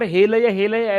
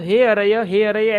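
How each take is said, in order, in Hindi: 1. यह शब्द L की आवाज़ के साथ बोला गया है। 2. यह शब्द R की आवाज़ के साथ बोला गया है। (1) "उसके स्थान पर हे लय हे लय ऐसा कहते हुए पराजित हो गए" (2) "उन्हें जो है वो हे अरय हे अरय ऐसा कहना था"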